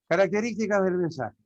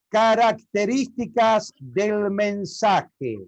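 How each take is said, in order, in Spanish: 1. Se murmura la frase con la boca apenas abierta. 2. Se dice la frase con cada sílaba bien articulada. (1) "hubo partes que no me entendió usted" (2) "es muy diferente"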